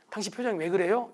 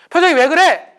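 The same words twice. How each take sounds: First: Said in the usual way. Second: Sharp raised voice, higher and louder; loud and fast. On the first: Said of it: "그냥 하면 되는데". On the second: Shown as a demonstration. Spouse snapping about the partner's face, loud. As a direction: fire the question at your spouse. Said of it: "말을 빨리 한다든지 말을 크게".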